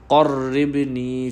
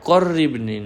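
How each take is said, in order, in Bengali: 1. প্রথম ধ্বনিটি গলার গভীর থেকে করা হয়। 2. প্রথম ধ্বনিটি সাধারণ সামনের k। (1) "কফ গলার মধ্যখান থেকে ক" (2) "কররিবনি না"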